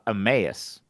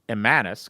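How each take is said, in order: First: No n sound comes before the last syllable. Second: An n sound comes before the last syllable. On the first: The speaker calls it right. "No, no, it's uh, Emmaus" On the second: The speaker calls it wrong. "I thought it was Emmanus because it's spelled E M M A N U S"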